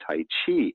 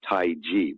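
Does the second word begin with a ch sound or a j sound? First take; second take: ch; j. First: The second word begins with a ch sound. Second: The second word begins with a j sound. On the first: The speaker calls it wrong. "most people in the West... they call it Tai Chi" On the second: The speaker calls it right. "supposed to be pronounced as J I"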